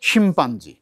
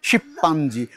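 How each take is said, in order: First: The word has an m sound before the p. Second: The word has a double p with no m. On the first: The speaker calls it right. "মানে আগে ময় পয় আছে।" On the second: The speaker calls it wrong. "আমরা অনেকে বলি শিপ্পাঞ্জি, শিপ্পাঞ্জি, উহা ভুল।"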